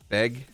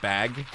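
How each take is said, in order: First: The vowel is raised, sounding close to beg. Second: The vowel is open, sounding like plain bag.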